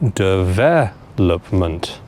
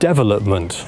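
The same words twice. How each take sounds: First: The stress is on the second syllable. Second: The stress is on the first syllable. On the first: The speaker calls it right. "the stress on this word needs to go on the second syllable" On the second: The speaker calls it wrong. "put the stressed syllable on the first syllable"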